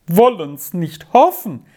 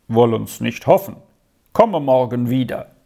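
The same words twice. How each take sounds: First: Higher, emphatic echo of dismay; despairing. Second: Low-key, matter-of-fact reply; brisk doctor. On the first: Aunt repeats the doctor's answer, despairingly. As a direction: throw the words back in despair. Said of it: "mit verzweiflungsvollem Ton". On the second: Doctor leaving an anxious aunt, brisk and reserved. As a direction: answer briefly, giving nothing away. Doctor's brief answer, later echoed despairingly. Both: A narrator's reading.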